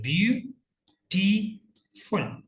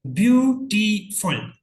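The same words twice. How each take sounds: First: ब्यूटीफुल very slowly, with a long gap after each syllable; teacher counting out the three syllables of ब्यूटीफुल; three separate syllables. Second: ब्यूटीफुल said loud and high, in measured syllables; teacher announcing ब्यूटीफुल in clear, slow parts; syllables sounded out. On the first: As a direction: break ब्यूटीफुल into ब्यू, टी, फुल, each drawn out. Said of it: "तीन syllable". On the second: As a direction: say ब्यूटीफुल slowly and firmly, syllable by syllable. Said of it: "अभी आप देख रहे हैं तीन syllable". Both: Shown as a demonstration.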